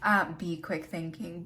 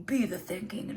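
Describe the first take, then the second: First: Said in the usual way. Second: "Be the thinking" said in a strange put-on way; a weird slipped take of "Be the thinking" that she laughs at; odd delivery. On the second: Shown as a demonstration. Fumbling the card message, odd put-on delivery. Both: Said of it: "I don't know why I said it like that".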